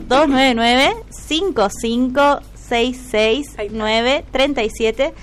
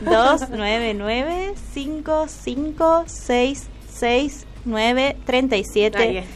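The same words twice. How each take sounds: First: The number is said fast. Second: The number is said slowly.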